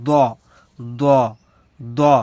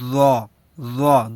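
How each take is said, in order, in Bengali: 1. ব্যঞ্জনটি একটি সাধারণ, স্পষ্ট d ধ্বনি। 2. ব্যঞ্জনটি d ও z-এর মাঝামাঝি শোনায়।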